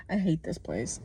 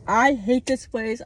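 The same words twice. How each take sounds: First: Said in the usual way. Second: The second one higher and louder; louder repeat. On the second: Real, not acted. Vlogger venting about America, repeating it louder. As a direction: say it again, angrier.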